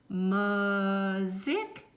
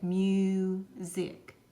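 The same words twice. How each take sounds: First: The first vowel is a short sound. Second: The first vowel is a long sound. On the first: The speaker calls it wrong. "of course you can tell the word does not make sense" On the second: The speaker calls it right. "the long vowel sound to get music"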